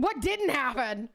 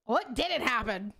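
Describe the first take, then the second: First: What punched in "What didn't happen?", slowly; stress on what. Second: "didn't" carries the weight in "What didn't happen?", slowly; stress on didn't. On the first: Streamer answering chat, hitting What hard. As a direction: lean on the first word, What. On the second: Streamer repeating, now stressing didn't. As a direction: lean on didn't, not What. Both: Shown as a demonstration. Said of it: "What happened?".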